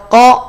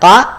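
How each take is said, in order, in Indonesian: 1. Vokalnya adalah bunyi O yang bulat. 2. Vokalnya adalah bunyi A yang terbuka dan jelas. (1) "atau ko, ko, ko? ... Bunyi vokal O" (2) "Dibaca ka, ka, ka"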